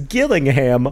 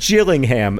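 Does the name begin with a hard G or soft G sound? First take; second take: hard G; soft G. First: It begins with a hard G sound. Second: It begins with a soft J sound. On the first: It names a different town, in Dorset. "hard G like girl" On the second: It names the town in Kent with the football team. "soft G like jam"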